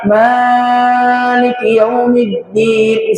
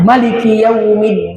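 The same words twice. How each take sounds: First: The vowel after the m is held far too long. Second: The vowel after the m is short. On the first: "bukan juga Maliki Yaumiddin, salah" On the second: "Ada yang mengatakan Maliki Yaumiddin. Ini tidak salah"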